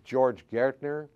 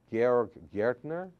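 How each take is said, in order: First: George said the English way, JOR-j; anglicized George before correcting himself. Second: Correcting himself to German Georg. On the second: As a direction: Georg in German, slow and deliberate. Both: Shown as a demonstration.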